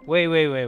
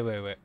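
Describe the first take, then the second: First: Urgent. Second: Said in the usual way. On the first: Real, not acted. Urgent interruption.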